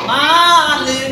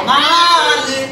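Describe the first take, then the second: Both takes have the same delivery.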